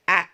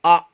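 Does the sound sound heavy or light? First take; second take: light; heavy. First: The sound is light, aimed forward and out. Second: The sound is heavy, aimed up at the palate. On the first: The speaker calls it right. "merupakan huruf tipis" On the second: The speaker calls it wrong. "suara itu akan menjadi tebal"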